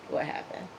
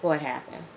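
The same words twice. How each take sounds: First: Whispered, hushed question; same question, now whispered. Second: Said in the usual way. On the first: Shown as a demonstration. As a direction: breathe it out like gossip. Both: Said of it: "asks twice, second whispered".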